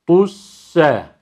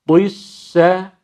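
No difference in how they are said.

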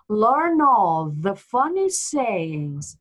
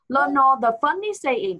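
First: It is read slowly with sounds drawn out. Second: It is read quickly with sounds clipped short. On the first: The speaker calls it right. "đó thì nghe nó khác" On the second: The speaker calls it wrong. "Thì em đang đọc theo cái kiểu đó đó"

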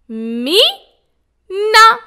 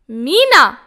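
First: The word is split with a pause between syllables. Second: The word is said smoothly without any pause.

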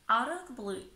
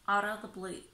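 First: The words are blended together in connected speech. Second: The words are blended together in connected speech.

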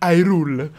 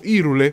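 First: The name is said in a non-Italian way. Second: The name is said in the Italian way.

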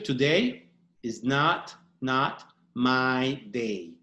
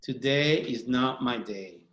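First: It is said slowly. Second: It is said at normal speed.

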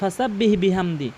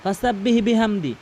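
No difference in how they are said.

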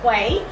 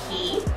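First: The name is said like 'kway'. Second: The name is said like 'key'. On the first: The speaker calls it wrong. "A lot of people may pronounce it as Quay" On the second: The speaker calls it right. "that pronunciation is Key"

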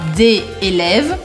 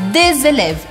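First: The s is silent, with no link between words. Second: The s is sounded and joined to the next word. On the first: The speaker calls it wrong. "Eu não vou falar de élève" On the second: The speaker calls it right. "mas des élèves. Eu vou grudar esse som"

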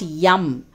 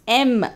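First: It begins with an added y sound. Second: It begins with a plain vowel, no y sound. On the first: The speaker calls it wrong. "Don't say Yum" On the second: The speaker calls it right. "It is M"

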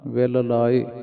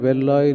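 First: The L sound is said twice, doubled. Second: The L sound is said only once. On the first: The speaker calls it right. "ਦੋਵੇਂ ਲੱਲੇ ਜਿਹੜੇ ਆ ਪੂਰੇ ਪੜ੍ਹਨੇ ਆ" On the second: The speaker calls it wrong. "ਵਿਲ ਲਾਏ ਨਹੀਂ ਕਹਿਣਾ"

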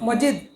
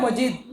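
No difference in how they are said.

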